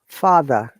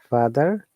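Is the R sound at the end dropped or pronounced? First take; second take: dropped; pronounced. First: The final R sound is dropped. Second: The final R sound is pronounced. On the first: "This is British English" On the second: "if you want to pronounce these words in American English"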